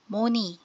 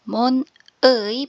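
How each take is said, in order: First: The final syllable is said as plain 'i'. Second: The final syllable is said as 'ui'. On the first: "pero pag pronounce mo"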